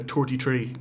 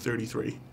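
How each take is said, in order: First: It is said with t sounds instead of th. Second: It is said with clear th sounds. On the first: This is how people with this accent say it. "we say uh" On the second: This is the usual way others say it. "instead of"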